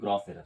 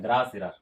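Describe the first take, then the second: First: The vowel in 'gross' sounds like 'oh'. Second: The vowel in 'gross' sounds like 'ah'. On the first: The speaker calls it right. "तो ग्रास error नहीं, ग्रॉस error है" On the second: The speaker calls it wrong. "कहीं कहीं कुछ लोगों का pronunciation ऐसा होता है"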